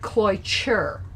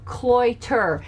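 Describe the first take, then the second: First: The middle consonant is a ch sound. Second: The middle consonant is a plain t sound. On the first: The speaker calls it right. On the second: The speaker calls it wrong.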